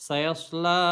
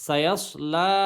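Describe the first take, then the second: The two takes are said the same way.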